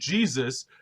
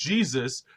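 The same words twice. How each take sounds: First: The name is said with an American English pronunciation. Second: The name is said with an American English pronunciation.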